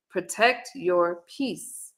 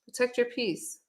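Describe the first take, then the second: First: Very slow, each word weighed; slow emphatic advice. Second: "Protect your peace" said softer with a falling close; soft repeat. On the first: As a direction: spell out "Protect your peace" slowly and firmly. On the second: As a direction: let the repeat sink in quietly. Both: Shown as a demonstration. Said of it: "don't come out here trying to defend yourself".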